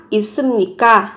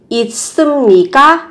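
First: 있습니까 said fast and softer, run together at native speed; 있습니까 at everyday pace; quick natural say. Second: 있습니까 drawn out slowly, each syllable clear, with a rising end; 있습니까 read slowly and clearly as a question; slow model reading. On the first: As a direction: toss off 있습니까 quickly, as in normal speech. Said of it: "Có nghĩa là có không?". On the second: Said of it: "có nghĩa là cái người mà đến ý". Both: Shown as a demonstration.

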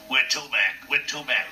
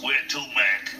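First: Repeating the cabbie's side-of-mouth line to learn it; practising cabbie voice. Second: Imitating a cabbie talking out of the side of his mouth; gruff cab driver. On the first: Shown as a demonstration. Puppeteer practising the cab driver's voice after the ride, side of the mouth. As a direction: drill the cabbie's voice out the corner of your mouth. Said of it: "I'm trying to learn to do this voice".

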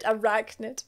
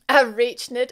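First: Said in the usual way. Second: "Arachnid" with a Rach sound, "a-RAYCH-nid"; punning pronunciation. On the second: Shown as a demonstration. Rach pun set against usual word.

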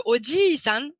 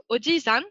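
First: "oji-san" with the i held, odjii-san; long I. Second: "oji-san" with a brief i, odji-san; short I. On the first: (« oji-san » avec le i allongé) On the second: (« oji-san » avec un i bref) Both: Shown as a demonstration. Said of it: "il y a bien un allongement du i".

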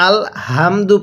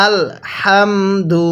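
First: "হামদু" with a lightly voiced হা, no breath of air; voiced, unaspirated হা. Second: "হামদু" with a light stream of air on the হা; breathed-out হা. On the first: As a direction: say "হামদু" quickly with a plain sounded h. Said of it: "অনেকেই আমরা এই জায়গার মধ্যে একটি ভুল করি". ("হামদু"-র হা হালকা আওয়াজ করে, বাতাস ছাড়া) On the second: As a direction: draw out "হামদু", letting air out through the mouth on its first sound. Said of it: "হালকা বাতাস বের করতে হবে". ("হামদু"-র হা মুখ দিয়ে হালকা বাতাস বের করে) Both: Shown as a demonstration.

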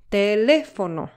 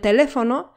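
First: "teléfono" split into te-lé-fo-no; syllable by syllable. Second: Said in the usual way. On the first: Shown as a demonstration. Teacher counting four syllables for learners, syllable by syllable. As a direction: sound out "teléfono" in four separate beats.

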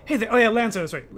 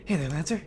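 First: Said in the usual way. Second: Low, soft menacing father voice; low villain father. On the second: Shown as a demonstration. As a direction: drop low and murmur as the dark king.

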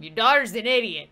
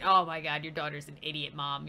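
First: Quick, firm complaint at normal volume or above; brisk, voiced-up insult; emphatic repeat. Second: Low, soft dry aside; quiet, deep-pitched grumble; muttered aside. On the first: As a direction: say it out, fast and exasperated. Repeats the comment louder. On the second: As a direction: mutter it low under your breath. Muttered comment, then repeated louder. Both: Real, not acted.

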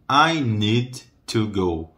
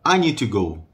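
First: Slow model. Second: Said in the usual way. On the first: Shown as a demonstration. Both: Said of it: "Você praticamente não fala o D do need".

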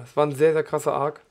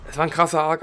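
First: "sehr, sehr" each hit hard; enthusing to viewers, "sehr, sehr" emphasized; stress on sehr sehr. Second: Said in the usual way. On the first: Real, not acted. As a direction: lean into both "sehr".

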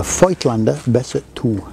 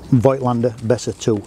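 First: Amateur German accent on the name. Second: Said in the usual way. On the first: Shown as a demonstration. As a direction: say it with your best German accent. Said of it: "That's my best German accent". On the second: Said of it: "It's actually a".

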